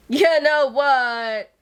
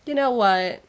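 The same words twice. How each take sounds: First: Louder, slow, drawn-out; a gushing, emphatic repeat; excited emphasis. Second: Said in the usual way. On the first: Real, not acted. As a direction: lean hard on "You know what?". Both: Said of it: "repeats it louder and slower".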